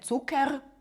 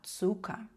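First: The final r is said as a consonant. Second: The final r is said as a vowel. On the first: The speaker calls it wrong. "«Р» в кінці ми не читаємо як «р», не «цукер»" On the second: The speaker calls it right. "а «цука»"

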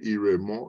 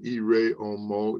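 First: The first vowel of the second word is dropped. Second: The first vowel of the second word is kept. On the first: "it would be more common linguistically to say ire mo" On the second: "instead of saying ire omo"

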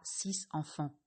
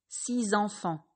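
First: No linking sound joins the two words. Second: A linking Z sound joins the two words. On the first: The speaker calls it wrong. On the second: The speaker calls it right.

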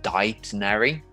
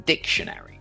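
First: The C is silent, like in indict. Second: The C is pronounced, as in dict. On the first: The speaker calls it wrong. "do I go and reach for the dictionary?" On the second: The speaker calls it right. "usually that D-I-C-T is pronounced dict"

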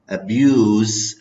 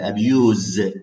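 First: The word ends with an s sound. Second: The word ends with a z sound. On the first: It is used as a noun. "with se, lama atlafadha bis se" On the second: It is used as a verb. "abuse ze"

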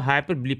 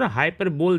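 First: The word ends with two syllables, 'buh-lee'. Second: The word ends with a single 'bowl' syllable. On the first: The speaker calls it right. "इसको हाइपरबली पढ़ते हैं" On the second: The speaker calls it wrong. "हाइपर बोल दिख रहा है"

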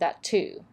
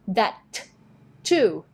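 First: The two T sounds merge into one. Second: Each T sound is released separately. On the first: The speaker calls it right. "เห็นไหมคือมันเป็นตัว T ต่อกันอยู่แล้ว" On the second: The speaker calls it wrong. "เราก็ไม่ต้องมาแบบ That too แบบนี้"

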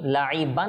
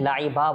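First: The word ends with an n sound. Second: The word ends on a vowel without n. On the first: "আমি লাইবান বলি নাই" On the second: "লাইবা বলেছি"

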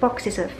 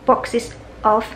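First: The two words run together as one. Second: The two words are said separately. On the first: "连读成为" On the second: "还需要把这个boxes of"

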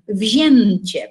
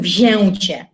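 First: The nasal vowel is said with an N sound. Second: The nasal vowel is said without an N sound. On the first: The speaker calls it right. "tutaj z kolei wymawiamy jak N" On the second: The speaker calls it wrong. "a nie mówimy wzięcie"

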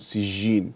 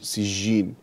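First: The j sound is a soft, continuous consonant. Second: The same.

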